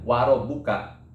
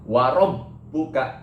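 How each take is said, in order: First: The 'b' is short, without holding. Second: The doubled 'b' is held and pressed. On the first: The speaker calls it wrong. "bukan warob buka" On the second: The speaker calls it right. "ditahan atau ditekan. Warob buka gitu"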